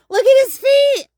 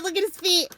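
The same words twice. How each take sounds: First: Higher and louder delighted cry; excited exclaim. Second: Softer, falling; soft aside. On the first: Showing viewers the frog's feet, thrilled. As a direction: squeal it out. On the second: Noticing the frog's feet, quiet amazement. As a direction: murmur it as you notice. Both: Real, not acted.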